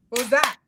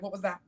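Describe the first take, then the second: First: Louder, challenging repeat of the question; mock confrontation. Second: Said in the usual way. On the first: Mom confronting her husband, louder and challenging. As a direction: push it at him like a dare. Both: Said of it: "I'm like".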